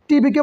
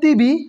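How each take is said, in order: First: The t sound is retroflex, tongue curled back. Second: The t sound is dental, tongue on teeth. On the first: This is how it is said in Bengali. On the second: This is how Malaysians say it.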